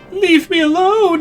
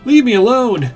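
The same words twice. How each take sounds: First: It is said in a put-on character voice. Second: It is said in the speaker's normal voice. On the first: "I have to do another voice" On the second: "I'm just gonna read it"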